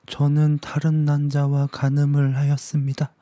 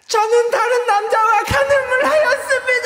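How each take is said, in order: First: It is said at a quieter volume. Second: It is said at a much louder volume.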